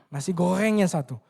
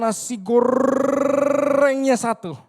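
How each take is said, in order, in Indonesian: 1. Bunyi r-nya cadel, bukan digulung. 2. Bunyi r-nya diucapkan dengan jelas. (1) "Kan dia cadel" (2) "dia bisa bilang nasi goreng"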